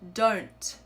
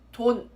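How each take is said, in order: First: The final consonant ends with a tiny released sound. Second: The final consonant is not fully pronounced. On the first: "hear that sound?" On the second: "not pronounce the uh, last consonant sound completely"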